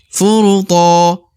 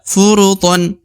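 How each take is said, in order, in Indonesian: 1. Kata ini berakhir dengan vokal tanpa n. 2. Kata ini berakhir dengan tambahan bunyi n. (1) "Kalau berhenti dibaca to" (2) "kalau dibaca untuk lanjut dibaca furuton"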